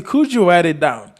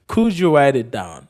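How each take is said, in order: First: Said in the usual way. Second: Slower, spaced model question; slow repeat. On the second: Shown as a demonstration. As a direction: repeat it slowly for learners.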